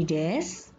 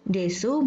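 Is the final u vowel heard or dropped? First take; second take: dropped; heard. First: The final u vowel is dropped. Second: The final u vowel is pronounced.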